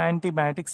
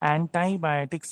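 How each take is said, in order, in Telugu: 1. ఈ పదం భారతీయ యాసలో పలకబడింది. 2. ఈ పదం అమెరికన్ యాసలో పలకబడింది. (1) "మనం ఏమంటాం? యాంటీబయాటిక్స్ అంటాం" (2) "అమెరికన్స్ ఎలా పలుకుతారంటే"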